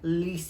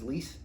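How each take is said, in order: First: The name is said in a fancy, affected way. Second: The name is said in a plain way. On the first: The speaker calls it wrong. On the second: The speaker calls it right.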